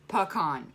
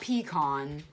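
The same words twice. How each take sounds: First: The first syllable sounds like 'puh'. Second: The first syllable sounds like 'pee'. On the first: The speaker calls it right. "Puh. Like P U H C O N" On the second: The speaker calls it wrong. "It's not pecan"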